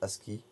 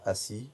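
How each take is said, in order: First: The word is said with a k sound. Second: The word is said without a k sound. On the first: This is how some other people say it. "je crois qu'il y en a qui disent ASCII" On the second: This is the speaker's own pronunciation. "Moi je dis euh, assis"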